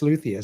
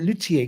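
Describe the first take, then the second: First: The word is pronounced with English sounds. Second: The word is pronounced with French sounds. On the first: The speaker calls it right. "It's it's luthier" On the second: The speaker calls it wrong. "I thought it was en français"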